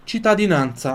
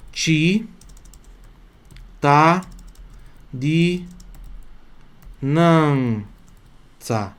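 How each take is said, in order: First: Said in the usual way. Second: Cittadinanza broken into separate syllables, extremely slow; chi-ta-di-nan-tsa spelled out sound by sound; slowly dissect cittadinanza for the students. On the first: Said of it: "Olha ali, ó". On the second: Shown as a demonstration. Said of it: "então pronuncia assim".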